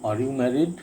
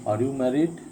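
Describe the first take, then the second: No difference in how they are said.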